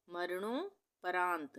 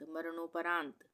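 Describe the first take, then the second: First: मरणो then परांत with a clear break; मरणो and परांत as two separate chunks; split in two parts. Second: Said in the usual way. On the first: Shown as a demonstration. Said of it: "दो भागों में विभाजित करके". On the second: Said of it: "एक साथ पढ़ेंगे".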